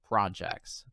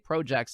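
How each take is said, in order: First: The word is said with an American pronunciation. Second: The word is said with a Canadian pronunciation. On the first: "instead of projects" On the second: "They say projects"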